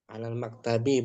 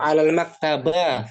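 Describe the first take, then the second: First: The last word ends in an i vowel. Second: The last word ends in an a vowel. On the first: The speaker calls it right. "Mesti kasrah" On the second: The speaker calls it wrong. "Fathah boleh nggak alal maktaba? Nggak boleh juga kan?"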